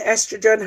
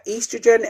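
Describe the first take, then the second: First: "estrogen" said the American way, opening with a short E; short ESS sound starting "estrogen"; American pronunciation. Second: "estrogen" said the English way, opening with a long EE; English EE sound starting "estrogen"; English pronunciation. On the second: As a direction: say "estrogen" British-style, starting EE-strogen. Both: Shown as a demonstration. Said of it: "the American way and English way".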